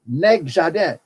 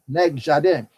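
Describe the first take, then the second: First: Nègre jardin said slowly and clearly in French patois, nasal jardin; French patois term. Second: Said in the usual way. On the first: Shown as a demonstration. Teacher repeats Nègre jardin for the class, in careful patois. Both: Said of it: "hear the word again?".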